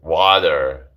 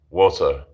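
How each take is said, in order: First: It is said with an American accent. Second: It is said with a British accent. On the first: "That's American" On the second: "I'm British accent"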